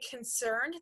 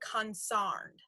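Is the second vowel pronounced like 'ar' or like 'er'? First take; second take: er; ar. First: The stressed vowel sounds like 'er'. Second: The stressed vowel sounds like 'ar'. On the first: "instead of saying concerned" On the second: "they say consarned"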